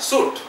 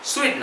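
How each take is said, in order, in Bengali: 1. এই শব্দে একটি সিলেবল আছে, যেমন soot। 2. এই শব্দে দুটি সিলেবল আছে, যেমন soo-it। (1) "আসল নাম হলো সুট" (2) "সুইট নয়"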